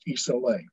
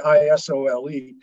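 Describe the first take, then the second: First: The vowels are said the Hawaiian way. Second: The vowels are said the plain English way. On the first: "in Hawaiian, that's pronounced Isole" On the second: "it's going to be Isole"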